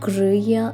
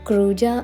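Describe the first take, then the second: First: The middle consonant is a 'y' sound. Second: The middle consonant is a 'j' sound. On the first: This is how local people say it. "ഇവർ പ്രൊനൗൺസ് ചെയ്യുന്നത് ക്രൂയ എന്നാണ്" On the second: This is how it looks from the spelling. "ക്രൂജ ആണ് സ്പെല്ലിംഗ്"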